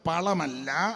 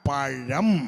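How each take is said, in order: First: The middle consonant is a plain 'l' sound. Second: The middle consonant is a retroflex 'zh' sound. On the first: The speaker calls it wrong. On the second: The speaker calls it right.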